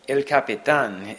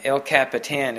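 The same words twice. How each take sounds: First: El Capitan said the Spanish way, kah-pee-TAHN; "El Capitan" with Spanish vowels, ending in -tahn; Spanish pronunciation. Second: El Capitan said the English way, cap-uh-TAN; "El Capitan" as English speakers say it, ending like "tan"; English pronunciation. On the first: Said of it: "the way that English". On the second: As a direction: anglicize "El Capitan" with flat a vowels. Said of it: "the way that English people s-, pronounce it". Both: Shown as a demonstration.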